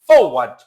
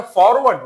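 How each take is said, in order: First: ফরওয়ার্ড with a silent first r, "fo-wad"; corrected pronunciation demo. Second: ফরওয়ার্ড with the first r sounded; wrong pronunciation demo. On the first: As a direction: drop the r in the first syllable of ফরওয়ার্ড, said loud. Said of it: "উচ্চারণটা হবে ফরওয়ার্ড". (ফরওয়ার্ড-এর প্রথম র বাদ দিয়ে "ফোওয়াড" উচ্চারণ) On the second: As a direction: pronounce the r in the first syllable of ফরওয়ার্ড. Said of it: "উচ্চারণটা ফরওয়ার্ড না". (ফরওয়ার্ড-এর প্রথম র স্পষ্ট করে ভুল উচ্চারণ) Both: Shown as a demonstration.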